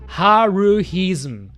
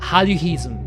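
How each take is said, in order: First: It is pronounced with English-style sounds. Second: It is pronounced with Japanese-style sounds.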